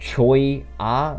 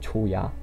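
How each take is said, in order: First: The name is split into two separate syllables. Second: The name is said in a Korean-sounding way. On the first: This is probably the official pronunciation. "I think the name is Choya, like like Choi Ah" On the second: This is the speaker's own habitual pronunciation. "but I pronounce it like like it's Korean"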